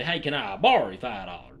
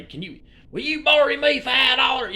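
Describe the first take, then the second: First: Lower, casual "can I borrow you" like a local; Alabama phrasing. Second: Said in the usual way. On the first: Shown as a demonstration. Explaining Alabama speech, quoting the local way casually. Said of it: "they'll just say". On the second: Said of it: "people don't say".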